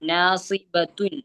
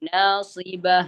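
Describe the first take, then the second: First: The word ends with a full -atun ending. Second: The word ends on a stopped h sound. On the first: "നാസിബത്തുൻ അവിടെ അവസാനം താഉൽ മർബൂത്ത" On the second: "അവസാനം സുക്കൂനായ ഹ"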